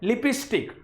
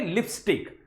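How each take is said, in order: First: The word has a regional Rajasthani pronunciation. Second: The word has a standard pronunciation. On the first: The speaker calls it wrong. "Rajasthani बहुत ज्यादा गलत जो है pronunciation करते हैं ... लिपस्टिक गलत है" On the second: The speaker calls it right. "कभी भी बोलोगे तो क्या बोलोगे?"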